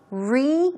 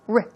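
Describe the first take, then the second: First: The syllable has a full, long 'ee' vowel. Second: The syllable has a short, reduced vowel. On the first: The speaker calls it wrong. "it's not really a re sound" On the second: The speaker calls it right. "it's r"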